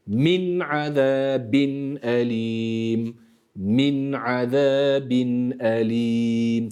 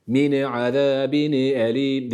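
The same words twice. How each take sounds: First: Min azabin elim very slowly, each nun clear; slow, word by word. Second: Min azabin elim with a slurred nun; wrong reading. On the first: Tutor models the verse slowly, word by word. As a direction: tane tane, aheste, every sound held. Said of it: "Tane tane, yavaş yavaş". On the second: Tutor shows the common mistake. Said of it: "Min azabin elim değil". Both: Shown as a demonstration.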